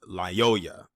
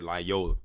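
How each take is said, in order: First: The consonant before the final vowel is a Y. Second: The consonant before the final vowel is an L. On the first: The speaker calls it right. "but it's Lyoya, L Y O Y A" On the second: The speaker calls it wrong. "I think I mispronounced his name"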